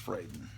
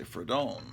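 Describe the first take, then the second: First: The name is said without a Spanish-sounding vowel. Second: The name is said with a Spanish-sounding vowel. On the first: The speaker calls it right. "but it's Fraden" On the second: The speaker calls it wrong. "I've always pronounced it in my mind like it's a Spanish name"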